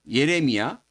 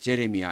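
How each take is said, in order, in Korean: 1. 이 이름은 Y 소리로 시작해요. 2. 이 이름은 J 소리로 시작해요. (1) "우리는 예레미야라고 부르는데" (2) "Y가 J 발음으로 나는데"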